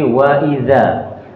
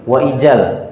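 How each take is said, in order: First: The consonant is pronounced as a dh sound. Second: The consonant is pronounced as a j sound. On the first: The speaker calls it right. "tapi wa idza" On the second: The speaker calls it wrong. "tidak menjadi wa ijal"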